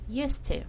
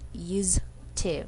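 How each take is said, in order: First: The middle consonant is a hissing S sound. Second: The middle consonant is a buzzing Z sound. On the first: "this has been just simply S sound" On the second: "the S here pronounced as Z sound"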